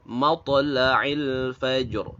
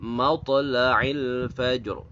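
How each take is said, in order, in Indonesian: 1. Kata terakhir berakhir dengan konsonan, vokalnya dihilangkan. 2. Kata terakhir berakhir dengan konsonan, vokalnya dihilangkan.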